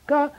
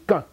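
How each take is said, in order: First: The syllable is said on a high pitch. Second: The syllable is said on a plain pitch. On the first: The speaker calls it wrong. "I used to say high tone, but it's not really a tone. It's not like ga" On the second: The speaker calls it right. "It's just ga"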